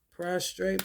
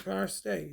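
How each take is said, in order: First: PROSTRATE with an r in the second syllable, "pros-trayt"; "Prostrate" with a clear "tr" before the last vowel; pronounced with both r's. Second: "prostrate" said as "PROS-tayt", without the second r; "prostrate" with a plain t in the last syllable, no r; second r dropped. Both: Shown as a demonstration. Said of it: "Yeah, same damn thing".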